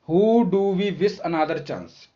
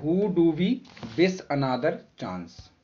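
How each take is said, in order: First: Slow reading aloud. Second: Said in the usual way. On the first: Shown as a demonstration. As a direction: question read very slowly. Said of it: "तो कहा गया है who". (धीमे पढ़ा गया प्रश्न) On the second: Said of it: "कहा गया है".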